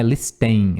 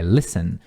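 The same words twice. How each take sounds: First: "listen" with the t sounded; wrong, with t. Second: "listen" said as lissen, the t silent. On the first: Teacher showing the wrong way to say listen. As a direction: say "listen" pronouncing the t. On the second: Teacher showing the right way to say listen. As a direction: drop the t in "listen". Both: Shown as a demonstration. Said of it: "não pronuncia esse T".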